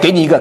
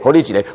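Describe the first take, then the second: First: It is spoken in standard Mandarin. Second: It is spoken in Taiwanese Hokkien. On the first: "听懂了吧？" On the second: "听不懂台语是吧"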